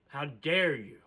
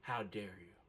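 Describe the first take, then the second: First: Indignant. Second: Near-silent, much softer how dare you; hushed fury. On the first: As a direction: land the word dare with force. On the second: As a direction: breathe the words out in disbelief. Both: Retold or imitated. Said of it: "raging on the inside".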